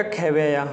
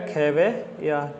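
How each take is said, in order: First: Said in the usual way. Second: खेवैया very slow, split before the last syllable; slow syllable breakdown. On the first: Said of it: "इसमें आएगा खेवैया". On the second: Shown as a demonstration. Teacher answers own spelling question, sounding out slowly. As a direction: draw खेवैया out in parts, falling. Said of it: "किसका क्या आएगा".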